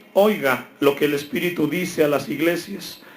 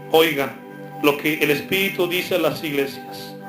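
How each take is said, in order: No difference in how they are said.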